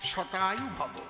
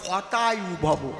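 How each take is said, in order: First: The first word begins with an sh sound. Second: The first word begins with an h sound. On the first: May you live a hundred years. The speaker calls it right. "ওর সংস্কৃত কি? শতায়ু ভব" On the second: May your life come to an end. The speaker calls it wrong. "যেই শতায়ু বলতে গেছে, কয় হতায়ু ভব"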